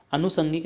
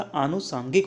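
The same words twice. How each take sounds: First: अनुसांगिक with a short first a; wrong pronunciation. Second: आनुसांगिक with a long first aa; correct pronunciation. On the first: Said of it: "अनुसांगिक नहीं होता". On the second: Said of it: "आनुसांगिक होता है". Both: Shown as a demonstration.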